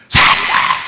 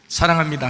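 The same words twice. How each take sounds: First: It is said loudly. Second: It is said softly.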